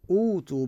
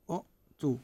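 First: "أوتوا" as oo-too, no catch between syllables; hamza turned to waw. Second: "أؤتوا" as u', silent catch, then too; original hamza form. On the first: Teacher showing the converted word, "أوتوا" with long smooth oo. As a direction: glide through "أوتوا" on a long oo. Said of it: "بعد ماكو همزة هنا". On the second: Teacher before converting the hamza, "أؤتوا" with a glottal catch. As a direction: cut the first vowel of "أؤتوا" short with a glottal stop. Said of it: "هذه الواو اللي هي الساكنة". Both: Shown as a demonstration.

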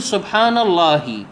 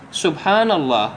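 First: "اللهِ" with a voiced final kasra, said slowly; slow recitation ending "الله" on an i; stopping on a vowel. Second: "الله" ending on a silent h; teacher closes "الله" with no vowel; stopping on a silent letter. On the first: Teacher models the wrong pause. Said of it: "لا تكسر وتقف". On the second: Correct pause for prayer recitation. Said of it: "أقف على ساكن". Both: Shown as a demonstration.

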